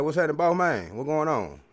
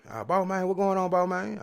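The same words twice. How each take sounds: First: Loud, lively greeting, a bit higher; greeting the store guys. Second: Much higher, bright imitation of the shop guys greeting back; hammed-up reply from the store cats; store guys' reply. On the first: Retold or imitated. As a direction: call out hearty hello to the shop guys. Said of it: "I'm like".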